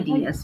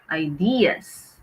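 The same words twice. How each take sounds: First: The stress is on the first syllable. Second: The stress is on the second syllable. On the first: The speaker calls it wrong. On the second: The speaker calls it right. "but the stress is on the second syllable"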